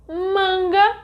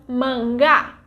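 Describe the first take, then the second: First: "manga" with MAN as the strong syllable; stress on first syllable. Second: "manga" with GA as the strong syllable; weak "man", then hit "ga" in "manga"; stress on last syllable. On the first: Teacher contrasts two words by stress, "manga" stressed on MAN. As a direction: lean on the "man" of "manga", let "ga" go weak. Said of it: "in the first word the stronger syllable". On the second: Teacher contrasts two words by stress, "manga" stressed on GA. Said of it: "in the second one is ga". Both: Shown as a demonstration.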